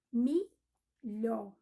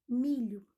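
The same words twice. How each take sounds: First: "milhó" split into two beats, MI, pause, LHÓ; separando as sílabas. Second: Said in the usual way. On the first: Shown as a demonstration. Separa milho em duas sílabas. ("milhó" pausado, sílaba por sílaba)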